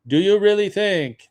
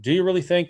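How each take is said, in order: First: High, loud mock French accent; badly faked French accent, pitched up and emphatic. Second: Said in the usual way. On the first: Imitating Jean Chrétien's impassioned speech, bad French accent. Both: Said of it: "that's a bad French accent".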